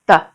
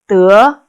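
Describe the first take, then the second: First: The syllable is said short and light, unstressed. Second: The syllable is said with a rising pitch. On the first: It links a verb to a description of how it is done. "the third one is a neutral tone, without uh, tone mark" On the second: It is the verb meaning to get. "The second is 得, second tone"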